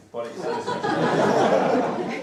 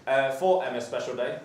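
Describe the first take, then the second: First: Slow, breathy laughing correction. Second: Said in the usual way. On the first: Real, not acted. Groom corrects himself to guests, laughing.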